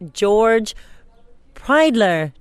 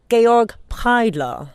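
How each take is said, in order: First: The first name sounds like English George. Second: The first name has German two-syllable Georg. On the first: The speaker calls it wrong. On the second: The speaker calls it right.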